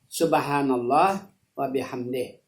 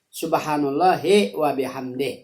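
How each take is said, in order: First: Allah ends with a stop before the next word. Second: Allahi is joined smoothly to the next word. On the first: "yang kedua diwakaf" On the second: "itu bawasal"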